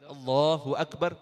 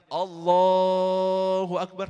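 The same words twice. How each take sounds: First: It is said quickly and short. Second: It is said slowly and drawn out.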